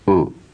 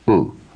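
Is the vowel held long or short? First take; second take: short; short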